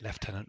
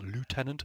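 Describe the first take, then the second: First: It is said with a British pronunciation. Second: It is said with an American pronunciation. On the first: The speaker calls it right. "For the Americans out there, we pronounce it lieutenant" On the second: The speaker calls it wrong. "not the lieutenant"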